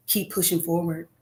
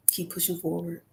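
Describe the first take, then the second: First: Said in the usual way. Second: Soft echo. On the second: Real, not acted. Advising aspiring artists, softly fading repeat. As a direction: repeat it much softer, fading away. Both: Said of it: "repeated advice to listeners".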